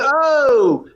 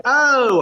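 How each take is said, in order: First: "oh" swooping high and drawn out; original take of OH. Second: "oh" high but a little more contained; a shorter, higher "oh", less drawn out; toned-down OH. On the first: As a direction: stretch "oh" out, high then falling. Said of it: "I went like this originally". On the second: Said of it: "they wanted that". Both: Shown as a demonstration.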